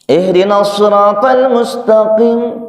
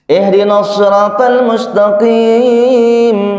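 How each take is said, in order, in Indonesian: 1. Vokal di frasa itu dibaca pendek. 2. Vokal di frasa ini dibaca panjang. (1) "Karena baca seenaknya dipendekin" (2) "Udunya panjang"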